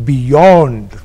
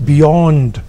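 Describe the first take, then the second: The two takes are said the same way.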